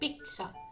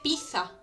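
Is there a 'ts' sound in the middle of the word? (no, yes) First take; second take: yes; no. First: The middle consonant is a 'ts' sound. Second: The middle consonant has no 'ts' sound. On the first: "Como si hubiera una C y luego una S" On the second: "hay mucha gente que le dice pizza"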